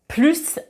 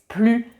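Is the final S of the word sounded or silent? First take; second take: sounded; silent. First: The final S is pronounced. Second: The final S is silent. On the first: "plus avec un S" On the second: "On ne prononce pas le S"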